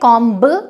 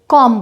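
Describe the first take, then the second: First: The final b sound is pronounced. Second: The final b sound is silent. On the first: The speaker calls it wrong. "उसमें कॉम्ब नहीं बोलेंगे" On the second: The speaker calls it right. "उसे कॉम बोला जाएगा"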